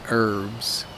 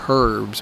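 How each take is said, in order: First: The word begins without any H sound. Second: The word begins with an audible H sound. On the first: The speaker calls it right. "the H is silent" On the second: The speaker calls it wrong. "we don't say herb or herbs"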